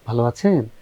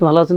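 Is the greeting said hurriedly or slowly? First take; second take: slowly; hurriedly. First: It is said slowly and gently. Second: It is said quickly and carelessly. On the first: The speaker shows respect. The speaker calls it right. "আস্তে ধীরে আদবের সঙ্গে কথা বলতে হবে" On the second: The speaker seems rude or unhinged. The speaker calls it wrong. "এরকম করে কথা বলে না"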